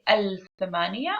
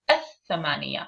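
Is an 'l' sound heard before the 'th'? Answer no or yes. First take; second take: yes; no. First: An 'l' sound is pronounced before the 'th'. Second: The 'l' is silent and the 'th' is doubled. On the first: The speaker calls it wrong. "I don't say" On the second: The speaker calls it right. "I say"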